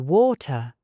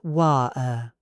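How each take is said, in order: First: The middle T is fully released. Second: The middle T is a glottal stop. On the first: It sounds suitable for formal settings. The speaker calls it right. "stick to the true T. Say water" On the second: It sounds casual and street level. The speaker calls it wrong. "not wa-er"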